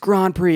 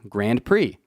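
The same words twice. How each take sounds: First: It is said with a non-American pronunciation. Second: It is said with an American pronunciation. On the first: The speaker calls it right. "it's Grand Prix" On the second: The speaker calls it wrong. "as we say here in America"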